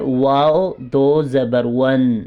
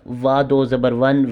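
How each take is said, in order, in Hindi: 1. हरफ़ का नाम पूरा बोला गया है। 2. हरफ़ का नाम छोटा करके बोला गया है। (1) "इसके लफ्ज़ को पूरा अदा करना है" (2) "इसको ऐसे नहीं पढ़ना"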